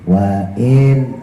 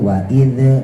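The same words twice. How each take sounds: First: The final consonant is held plainly, without echo. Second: The final consonant is bounced with an echo. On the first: The speaker calls it right. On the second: The speaker calls it wrong.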